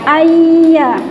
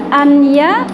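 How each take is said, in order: First: The n blends into the y sound. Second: The n sound is clearly pronounced. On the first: The speaker calls it right. "nunnya hilang, masuk ke huruf iya" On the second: The speaker calls it wrong. "tidak anya"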